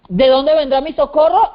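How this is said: It is said as a question.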